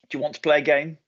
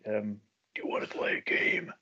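First: It is said in the speaker's normal voice. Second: It is said in a put-on creepy voice.

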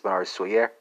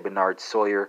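First: The name is said in a French accent. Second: The name is said in a Texan accent. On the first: The speaker calls it right. "That's the French pronunciation" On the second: The speaker calls it wrong. "I'm just butchering that word with my Texas accent"

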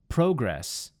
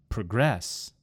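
First: The stress falls on the first syllable. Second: The stress falls on the second syllable. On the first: It is a noun. "In the first word, it was on the first syllable" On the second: It is a verb. "in the second word, I moved the emphasis to the second syllable"

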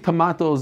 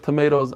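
First: It is said with a British accent. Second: It is said with an American accent.

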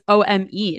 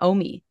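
First: It is spelled out as separate letters. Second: It is said as a single word. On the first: The name is an abbreviation. The speaker calls it right. "it was an abbreviation" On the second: The name is its own word. The speaker calls it wrong. "instead of just its own word"

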